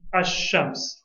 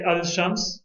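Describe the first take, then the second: First: The L merges into a doubled sh sound. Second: A clear L sound comes before sh. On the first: The speaker calls it right. "the lam is assimilated into the sheen" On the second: The speaker calls it wrong. "Do I say al shams?"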